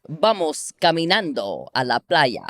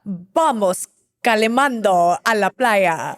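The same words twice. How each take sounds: First: Spanish said clearly for copying; Spanish phrase at an even, natural flow; Spanish model phrase. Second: Slow, careful imitation of Spanish; learner's slow copy of a Spanish accent. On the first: Shown as a demonstration. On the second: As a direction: parrot the Spanish phrase back slowly. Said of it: "[name] is a savant at copying".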